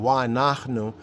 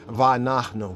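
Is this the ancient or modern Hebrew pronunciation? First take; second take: ancient; modern. First: It uses the ancient Hebrew pronunciation. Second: It uses the modern Hebrew pronunciation. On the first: "Ancient pointing" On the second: "Modern Hebrew, they'll say"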